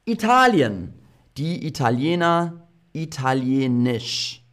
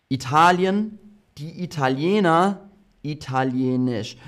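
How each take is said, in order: Both takes have the same delivery.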